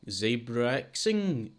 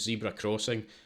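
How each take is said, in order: First: The name sounds like zebra-xing, run together. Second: The name sounds like the words zebra crossing.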